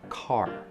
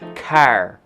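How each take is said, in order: First: It is said in the speaker's own accent. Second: It is said in a Northern Illinois accent.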